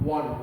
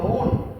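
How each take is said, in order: First: It begins with a w sound. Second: It begins with a plain vowel sound. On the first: The speaker calls it right. "this is not own, but we say one" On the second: The speaker calls it wrong. "sometime you might be pronouncing these words like own"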